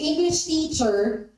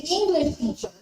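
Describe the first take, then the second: First: The stress falls on the word teacher. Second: The stress falls on the word English. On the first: A person who teaches English. "the stress is on the word teacher" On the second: A teacher who is from England. "then it is a person who is actually English"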